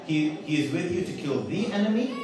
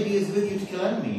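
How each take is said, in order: First: "the enemy" with THE clearly sounded; corrected English. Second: Said in the usual way. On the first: Shown as a demonstration. Speaker correcting grammar for audience, clearly sounded "the enemy". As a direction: set out "the enemy" carefully as the correction. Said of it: "This is the correct English". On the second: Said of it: "But in English, you don't say".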